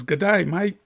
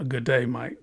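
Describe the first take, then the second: First: Put-on Australian accent. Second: Said in the usual way. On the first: Opal buyer greeting the cutter in an Australian accent. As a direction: greet like an outback Aussie bloke. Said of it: "That's pretty good, huh?". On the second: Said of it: "How do you like my".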